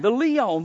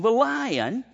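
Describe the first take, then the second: First: "leon" said as LEE-on, a slip; "leon" mispronounced before the fix; slip of the tongue. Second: "lion" fixed to LYE-un; "lion" said right after the slip; self-correction. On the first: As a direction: stumble into "leon" with two syllables LEE-on. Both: Real, not acted.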